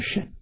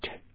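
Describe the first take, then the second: First: The word begins with an 'sh' sound. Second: The word begins with a 'ch' sound. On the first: It is the noun meaning vehicle. The speaker calls it right. "古音念甚" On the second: It is the verb meaning to ride. The speaker calls it wrong. "现在大家都念成"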